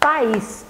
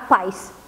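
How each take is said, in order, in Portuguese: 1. A palavra é dividida em duas sílabas. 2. A palavra é comprimida em uma sílaba. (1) "Você fala país. Então, duas batidinhas" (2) "você não fala paz"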